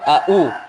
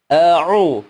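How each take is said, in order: First: Both syllables begin with a glottal stop. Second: A glottal stop comes first, then an ain sound. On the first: The speaker calls it wrong. "sama-sama hamzah, salah" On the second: The speaker calls it right. "Hamzah dulu baru ain"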